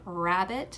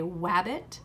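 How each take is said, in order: First: The word begins with an R sound. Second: The word begins with a W sound. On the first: The speaker calls it right. "instead of saying rabbit" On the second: The speaker calls it wrong. "a W for an R"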